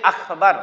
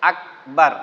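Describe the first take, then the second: First: আখবার with a showy breathy kh; stylish wrong Akhbar. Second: আকবার with a plain hard k; correct Akbar. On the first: Teacher imitates people who say আখবার with flair. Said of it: "অনেকে একটু style করে বলতে যে". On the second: Teacher gives the correct আকবার after the wrong ones. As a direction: clean আকবার, k stop then b. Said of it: "হবে হলো". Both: Shown as a demonstration.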